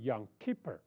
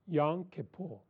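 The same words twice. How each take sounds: First: It is said with an American-style pronunciation. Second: It is said with a Hebrew, Jewish-style pronunciation. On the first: "那美国人的发音是Yom Kippur" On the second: "这个犹太人的发音叫做Yom Kippur"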